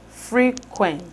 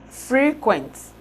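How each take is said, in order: The two takes are said the same way.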